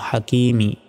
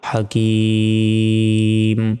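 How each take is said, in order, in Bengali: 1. এটি 'm' এর পরে একটি ছোট 'i' স্বরধ্বনি দিয়ে শেষ হয়। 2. লম্বা স্বরটি টানা হয়, এবং 'm' দিয়ে শেষ হয়।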